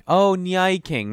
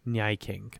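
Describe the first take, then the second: First: "Nyai King" drawn out, higher and louder, like "nya" and "king"; realizing pronunciation. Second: Said in the usual way. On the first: Real, not acted. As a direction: slowly say "Oh, Nyai King" as the pun dawns. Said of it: "Now I'm saying it out loud. It makes perfect sense". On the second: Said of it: "Now I'm saying it out loud".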